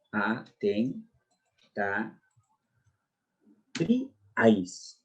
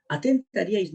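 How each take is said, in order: First: "Atentaríais" broken slowly into separate syllables, long pauses between. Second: Said in the usual way. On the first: Shown as a demonstration. Teacher showing students how the word divides, syllable by syllable. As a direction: draw out each syllable of "Atentaríais" on its own. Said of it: "sería de este modo". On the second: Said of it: "porque así la veo sería de este modo".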